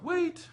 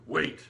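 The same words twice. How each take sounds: First: It is said in a higher-pitched voice. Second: It is said in a deeper, lower voice. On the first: "she says it in her tone" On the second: "tried to mimic, like, a deeper man's voice"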